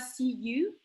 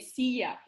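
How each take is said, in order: First: The second word ends in a full 'oo' vowel. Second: The second word ends in an 'ah' vowel. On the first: The speaker calls it wrong. "on dit pas see you" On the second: The speaker calls it right. "comme si c'était Y et A"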